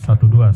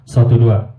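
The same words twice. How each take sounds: First: The voice plays through the subwoofer alone. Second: The voice plays through main speakers and subwoofer. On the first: "Kita dengar uh, suara di subwoofer" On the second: "Jadi masuk ke subwoofer juga"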